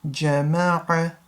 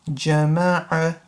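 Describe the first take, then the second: Both takes have the same delivery.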